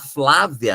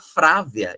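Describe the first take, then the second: First: The word begins with an f-l cluster. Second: The word begins with an f-r cluster. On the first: "ao invés de falar Flávia" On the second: "a pessoa vai falar Frávia"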